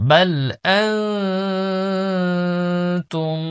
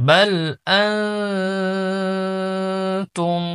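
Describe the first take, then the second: No difference in how they are said.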